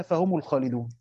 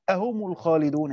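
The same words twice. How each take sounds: First: Said in the usual way. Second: أهم said with a clear glottal stop opening the word; hamza moved before هم. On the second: Shown as a demonstration. Teacher showing students where the questioning hamza belongs, stressing it. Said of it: "محل همزة الإنكار إن هي تدخل على".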